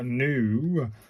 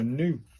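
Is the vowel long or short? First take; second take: long; short. First: The vowel is drawn out long. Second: The vowel is cut short. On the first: The speaker calls it wrong. "it's not a new" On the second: The speaker calls it right. "like the new in noodles, but short"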